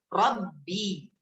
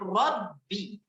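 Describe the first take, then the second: First: The final vowel is drawn out like a long ee. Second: The final vowel is short and clipped. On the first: The speaker calls it wrong. "karena adanya berlebihan dalam harokat kasroh, sehingga seolah-olah muncul huruf ya" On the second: The speaker calls it right. "seharusnya kita baca Robbi, selesai"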